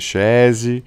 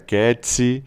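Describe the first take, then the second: First: The name begins with a 'sh' sound. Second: The name has a 'k' and a 'ts' sound. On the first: This is the Portuguese reading of the name. "em português pode ser Chese" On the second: This is the Italian reading of the name. "em italiano seria Ketsi"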